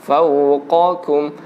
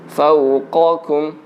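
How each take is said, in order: Both takes have the same delivery.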